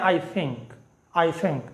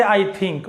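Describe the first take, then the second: First: "I think" with a soft th, softer; English I think. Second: "I think" with hard aspirated th; wrong I think. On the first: Teacher shows students how English say "I think", soft th. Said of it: "वो कहते हैं". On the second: Teacher shows students the wrong way, "I think" with hard th. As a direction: local "I think". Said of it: "इस तरह ये नहीं कहते". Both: Shown as a demonstration.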